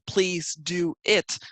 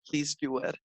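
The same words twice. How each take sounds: First: Do and it are said without a linking w. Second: A w sound links do and it. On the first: "it's spelled please do it" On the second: "we pronounce it please do it"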